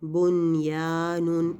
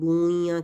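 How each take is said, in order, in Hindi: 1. n बिना नासिक मिलाए साफ़ बोला जाता है। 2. n अगली आवाज़ में मिल जाता है और नासिकीकृत हो जाता है। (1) "बल्कि बुन बुनयानुन ऐसे पढ़ा जाएगा" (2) "यानी बुनिया करके नहीं पढ़ेंगे"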